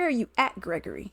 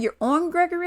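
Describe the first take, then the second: First: "at" picked out, quicker and softer question; stress on AT. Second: "on" leaned on, pitched high in disbelief; stress on ON. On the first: Correcting her date's preposition, "at" stressed. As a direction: offer the alternative, leaning on "at". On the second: Querying her date's location, "on" stressed high. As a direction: question it with the weight on "on". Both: Retold or imitated. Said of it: "he thought it was Gregory Street, not Gregory Hall".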